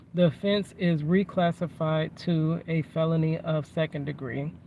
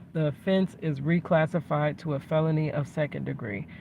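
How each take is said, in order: No difference in how they are said.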